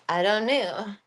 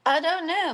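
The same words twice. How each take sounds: First: Said in the usual way. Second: Higher, louder, sing-song "I don't know"; playful baby-talk shrug; cutesy pet voice. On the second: Pretend. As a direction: coo it at the pet. Repeated to pet Marcus.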